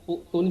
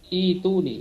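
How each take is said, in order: First: The word begins with a 'u' vowel. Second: The word begins with an 'i' vowel. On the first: The speaker calls it wrong. "Bukan utun" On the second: The speaker calls it right. "tapi itu nih"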